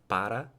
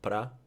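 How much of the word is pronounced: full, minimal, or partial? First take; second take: full; partial. First: Both syllables are pronounced in full. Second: The first vowel is dropped, leaving one syllable. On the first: "you can have para" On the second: "you can have pra"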